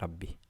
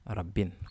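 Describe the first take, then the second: First: The word ends on a vowel, no n. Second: The word ends with an added n sound. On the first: The noun is light. "Par le son I. On n'entend pas le son extra N" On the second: The noun is not light. "Normalement, ça devait être Rabbin, comme ça"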